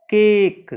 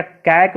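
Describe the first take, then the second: First: केक said louder with a long e vowel; correct reading. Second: कैक read wrongly with an ae vowel, as a trap. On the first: Teacher giving pupils the right way to say CAKE, clear demo. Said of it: "इसका उच्चारण हो जाएगा ए". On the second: Teacher showing the wrong way to read CAKE, mock mistake. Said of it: "कैक नहीं". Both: Shown as a demonstration.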